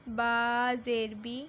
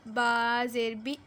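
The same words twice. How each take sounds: Both takes have the same delivery.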